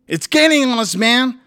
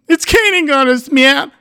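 First: It is read in a plain, steady voice. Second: It is read in a tearful, choked voice.

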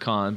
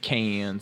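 First: It is said like 'con', without a final s. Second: It is said like 'cans', with a final s. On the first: "the French pronunciation is con" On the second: "the American pronunciation is cans"

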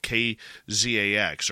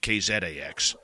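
First: The letters are said in a plain accent. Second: The letters are said in a Canadian accent.

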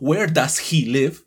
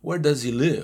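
First: It is said with a Latino accent. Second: It is said with a native, linked English accent.

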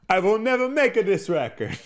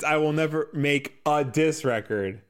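First: It is said in a fake Italian accent. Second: It is said in a plain voice.

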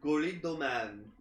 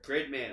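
First: Said with extra vowels between the consonants. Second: Said with no extra vowels between the consonants. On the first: "It's how Japan pronounces it" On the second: "we just say"

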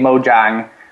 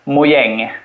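First: The name is pronounced the English way. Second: The name is pronounced the Swedish way. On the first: "I suggested we would say Mojang" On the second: "But in Swedish, it would be Mojang"

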